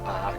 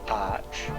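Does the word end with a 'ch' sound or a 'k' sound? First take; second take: k sound; ch sound. First: The word ends with a 'k' sound. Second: The word ends with a 'ch' sound. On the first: "depending on how you pronounce it" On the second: "I've always said arch"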